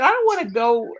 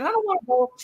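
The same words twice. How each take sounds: First: Said in the usual way. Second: Imitating her older sister, higher and complaining; mock whine of a reluctant old lady; whiny sister. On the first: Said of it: "I said". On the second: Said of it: "And she said".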